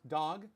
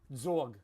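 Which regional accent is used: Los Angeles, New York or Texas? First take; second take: Los Angeles; New York. First: Said in a Los Angeles accent. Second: Said in a New York accent, like zog. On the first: "I'm from Los Angeles" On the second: "In parts of New York"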